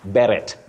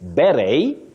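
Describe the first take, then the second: First: The final T is pronounced. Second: The final T is silent. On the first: The speaker calls it wrong. "many people, Betty, say beret" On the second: The speaker calls it right. "the T is silent. You can say beret"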